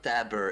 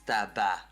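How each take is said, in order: First: The first part ends with an 'er' sound. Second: The first part ends with an open 'a' sound. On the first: The speaker calls it wrong. "it's not taber" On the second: The speaker calls it right. "it's taba, like tobacco"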